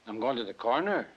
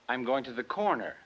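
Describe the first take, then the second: First: The voice rises at the end. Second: The voice falls at the end.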